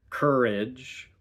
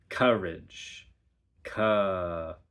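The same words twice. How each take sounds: First: "courage" with R through the vowel; R-colored vowel. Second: "courage" as "cuh-rage", R launching the second syllable. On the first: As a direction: keep the R on the whole vowel. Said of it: "So instead of". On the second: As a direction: open vowel, then R into the second syllable. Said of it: "we have". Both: Shown as a demonstration.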